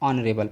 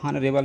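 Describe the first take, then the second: First: The word begins directly with the vowel sound. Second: The word begins with an audible h sound. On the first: The speaker calls it right. "H यहाँ पर silent है" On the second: The speaker calls it wrong. "हॉनरेबल ना पढ़ के"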